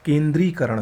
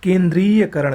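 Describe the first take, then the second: First: केंद्रीकरण without ya; correct form. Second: केंद्रीयकरण with ya inside; wrong form. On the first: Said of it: "सही होता है". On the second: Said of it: "गलत है". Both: Shown as a demonstration.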